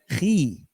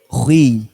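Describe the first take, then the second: First: The kh sound is light, without raising. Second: The kh sound is heavy, with raised tongue. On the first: The speaker calls it wrong. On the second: The speaker calls it right. "huruf-huruf yang terangkat"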